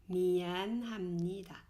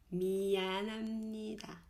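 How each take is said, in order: Both takes have the same delivery.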